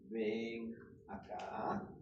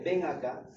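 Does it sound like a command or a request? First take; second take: request; command. First: It is said as a polite request. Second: It is said as a firm command. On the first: The speaker is asking a favor. "pedir un favor" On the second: The speaker is giving an order. "como una orden"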